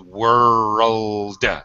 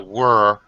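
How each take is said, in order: First: The final l and d sounds are clearly pronounced. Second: The final l and d sounds are left out. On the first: The speaker calls it right. "It's a world. Pronounce every sound" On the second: The speaker calls it wrong. "It's not a word"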